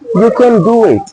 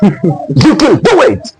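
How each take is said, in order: First: It is said flatly, without energy. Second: It is said with lively energy.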